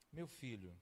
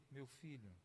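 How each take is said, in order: First: Tender father. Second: Pai falando baixo e carinhoso; tender fatherly voice. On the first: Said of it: "eu fico tentando imaginar a voz". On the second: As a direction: como um pai que chama o filho com ternura. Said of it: "eu fico tentando imaginar a voz, a entonação". (voz suave e carinhosa de pai) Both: Retold or imitated.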